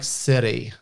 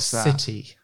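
First: The t is softened into a quick flap. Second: The t is pronounced as a clear, crisp t. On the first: This is a newly picked-up American habit. "Like I started to drop my T's" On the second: This is the speaker's usual way of saying it. "Instead of"

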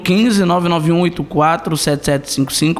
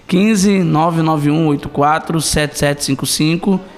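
First: The number is said fast. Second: The number is said slowly.

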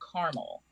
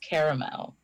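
First: The word is said with two syllables. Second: The word is said with three syllables. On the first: The speaker calls it wrong. "It's not C-A-R-M-E-L. That's caramel" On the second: The speaker calls it right. "There's an extra A"

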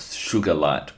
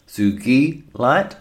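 First: The word begins with 'sugar', with a soft sh. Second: The word begins with 'soogee', with a hard g. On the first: The speaker calls it wrong. "not sugar light or anything like that" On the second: The speaker calls it right. "So sugi, like geese, sugi light"

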